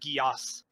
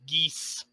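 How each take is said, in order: First: The name is said as two syllables, like 'gee-oss'. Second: The name is said as one syllable, like 'geese'. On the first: The speaker calls it wrong. "I actually mispronounced the spell's name" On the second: The speaker calls it right. "It's actually a geese spell"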